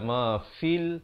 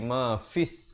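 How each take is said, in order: First: The word ends with an l sound. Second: The word ends with an s sound. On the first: The speaker calls it wrong. "dia tak baca ma fil" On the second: The speaker calls it right. "tapi ma fis, terus masuk di atas sin"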